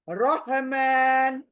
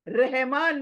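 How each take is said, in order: First: The r is heavy, with a full mouth. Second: The r is light, with a thin mouth. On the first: The speaker calls it right. "ये हमेशा का मोटा मोटा लेटर है" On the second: The speaker calls it wrong. "रहमान नहीं"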